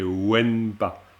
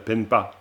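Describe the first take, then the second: First: The word begins with a w sound. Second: The word begins with a p sound. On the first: The speaker calls it right. "c'est wenpa" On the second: The speaker calls it wrong. "tu es juste tombé quand même dans le joli piège en disant euh, penpa"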